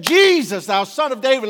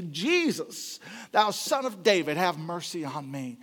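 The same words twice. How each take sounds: First: Loud, high cry over a crowd; calling out loud. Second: Said in the usual way. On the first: Retold or imitated. Blind beggar crying out to Jesus over the crowd, loud and high. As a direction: call out to Jesus above the crowd. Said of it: "he called out unto Jesus Christ". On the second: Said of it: "He asked for mercy".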